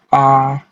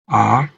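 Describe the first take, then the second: First: The pitch stays level throughout. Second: The pitch rises from low to high. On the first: "nada datar, suara yang datar dan konsisten dari awal hingga akhir kata" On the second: "nada naik, mengikuti kurva naik"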